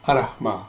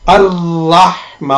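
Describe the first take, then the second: First: The r sound is short and single. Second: The r sound is held long and doubled. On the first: The speaker calls it wrong. "आपने इसको बगैर तशदीद के पढ़ा है" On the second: The speaker calls it right. "इसकी सही प्रोनाउंसिएशन"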